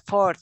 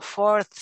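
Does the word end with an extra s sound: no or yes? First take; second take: no; yes. First: The word ends on th without s. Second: The word ends with an added s sound. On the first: The speaker calls it right. "sin la S" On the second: The speaker calls it wrong. "usted dijo algo así como fourths"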